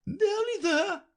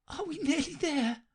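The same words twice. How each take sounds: First: Very high, slow, louder queen echo; queen repeating. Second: Panting Alice. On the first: Queen echoes Alice while dragging her, high and loud. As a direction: throw her words back at her. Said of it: "the queen repeated". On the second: Alice asks the queen while running, high and breathless. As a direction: push the words out between breaths. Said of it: "Alice managed to pant out". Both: A narrator's reading.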